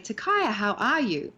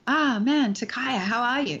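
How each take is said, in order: First: Bright cheerful greeting; happy. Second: A mild sad sigh on the greeting. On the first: Acting teacher showing a happy greeting. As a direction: greet Takaya like you're glad to see him. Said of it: "So right now I'm happy". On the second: Acting teacher demonstrating the sad take. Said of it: "I know I'm sad". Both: Shown as a demonstration.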